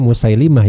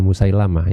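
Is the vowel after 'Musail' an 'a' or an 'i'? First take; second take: i; a. First: The vowel after 'Musail' sounds like 'i'. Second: The vowel after 'Musail' sounds like 'a'. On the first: The speaker calls it right. "jadi kita bacanya Musailimah" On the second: The speaker calls it wrong. "bukan Musailamah"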